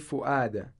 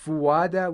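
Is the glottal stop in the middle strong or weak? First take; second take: strong; weak. First: The middle glottal stop is strong. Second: The middle glottal stop is weak. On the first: The speaker calls it right. "we say" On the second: The speaker calls it wrong. "Instead of saying"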